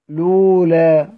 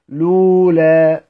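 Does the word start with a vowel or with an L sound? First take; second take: L sound; L sound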